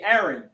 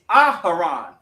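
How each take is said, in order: First: The name is said the usual English way. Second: The name is said with an added h sound. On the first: The speaker calls it wrong. "because of the English language, we say" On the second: The speaker calls it right. "in the actual ancient"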